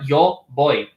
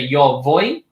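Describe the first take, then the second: First: Voy begins with a B sound. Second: Voy begins with a V sound. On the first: "many pronounce them as a B" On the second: "pronounced as a V, like in English"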